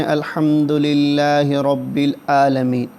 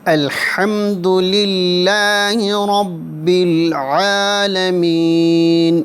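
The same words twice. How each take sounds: First: الحمد للہ رب العالمین with a plain h in الحمد and a glottal hamza in العالمین; wrong hamza sound. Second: الحمد للہ رب العالمین with a clear throaty ح in الحمد and ع in العالمین; correct Arabic ayn. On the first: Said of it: "کچھ لوگ پڑھتے ہیں". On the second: Teacher showing students the right sound, careful throaty ح and ع. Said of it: "حمزہ اور عین کا ہم فرق رکھیں گے". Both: Shown as a demonstration.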